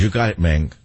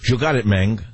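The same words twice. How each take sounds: First: Puerto Rican gangster accent; thick Puerto Rican accent. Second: Spanish-accented catchphrase. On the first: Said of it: "That's more Puerto Rican". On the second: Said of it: "practicing my Spanish accent". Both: Shown as a demonstration.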